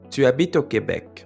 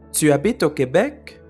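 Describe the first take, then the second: First: The voice falls at the end. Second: The voice rises at the end. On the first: It is a statement. "la voix descend" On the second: It is a question. "la voix monte"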